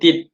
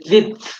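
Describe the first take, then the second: First: The word ends with a t sound. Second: The word ends with a th sound. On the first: The speaker calls it wrong. "so we will say tit" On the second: The speaker calls it right. "we cannot say tit"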